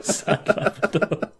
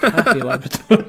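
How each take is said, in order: First: Slow, laughing mock-sad label; mock sad Labrador. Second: Higher, louder, laughing happy label; happy Labrador. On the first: Co-host captioning pictures of a Labrador, mock sad. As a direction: drag it out sadly through a laugh. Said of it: "and it's like". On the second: Acted. Co-host captioning pictures of a Labrador, mock happy. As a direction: say it up and loud through a laugh. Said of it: "six pictures of a Labrador".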